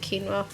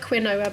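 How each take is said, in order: First: It is pronounced differently from the spelling. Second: It is pronounced the way the spelling suggests. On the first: "but you pronounce it quinoa" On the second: "it looks like quinoa"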